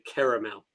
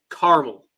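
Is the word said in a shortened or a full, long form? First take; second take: full; shortened. First: The word is said in full, every vowel sounded. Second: The word is shortened, with a vowel dropped. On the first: This is how Canadians say it. "there's clearly two A's in the word" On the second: This is how Americans say it. "the simplified version"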